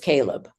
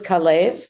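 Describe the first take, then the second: First: The name is said with an English pronunciation. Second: The name is said with a Hebrew pronunciation. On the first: "and in English, it's Caleb" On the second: "in Hebrew, it's Caleb"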